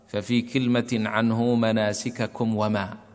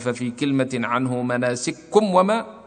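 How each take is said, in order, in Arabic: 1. يُنطق الكافان منفصلين، دون إدغام. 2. يُدغم الصوتان الكافان، ويبقى الميم قصيرًا. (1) "فالصحيح أن نقرأ بدون إدغام" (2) "لو قلنا ففي كلمة عنه مناسككم وما لا يجوز ذلك في النظم"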